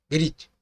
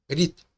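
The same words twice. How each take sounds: Both takes have the same delivery.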